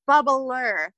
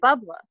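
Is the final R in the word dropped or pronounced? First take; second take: pronounced; dropped. First: The final R sound is clearly pronounced. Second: The final R sound is dropped.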